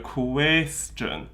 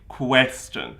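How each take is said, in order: First: The first vowel is kept narrow. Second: The first vowel is opened out widely. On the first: The speaker calls it right. "So if you go question, we, okay, that works" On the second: The speaker calls it wrong. "some people do open it out quite widely"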